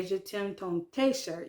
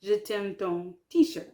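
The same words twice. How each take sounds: First: Slow French sentence with "t-shirt" said "tay-shirt"; wrong French-style T. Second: French sentence with "t-shirt" said "tee-shirt"; English loanword kept. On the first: Learner showing what you can't say, "t-shirt" as "tay-shirt". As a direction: turn the tee of "t-shirt" into "tay". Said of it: "you can't say". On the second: Learner correcting the example, "t-shirt" as "tee-shirt". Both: Shown as a demonstration.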